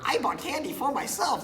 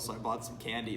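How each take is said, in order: First: It is said in a Donald Duck-like voice. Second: It is said in a normal voice.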